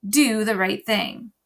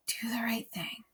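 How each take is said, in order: First: Said in the usual way. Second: Whispered, fading echo. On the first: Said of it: "my grandfather's voice saying". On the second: A narrator's reading. Grandfather's advice echoing in Bryce's mind, whispered. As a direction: let it echo back in a whisper. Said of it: "repeated echo of grandfather".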